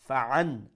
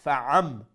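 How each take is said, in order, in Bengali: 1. শব্দটি n ধ্বনি দিয়ে শেষ হয়। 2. শব্দটি m ধ্বনি দিয়ে শেষ হয়। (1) "the original sound was" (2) "it will become fa'am"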